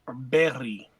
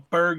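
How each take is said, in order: First: The word ends with a soft y-like sound. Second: The word ends with a hard g sound. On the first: The speaker calls it right. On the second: The speaker calls it wrong.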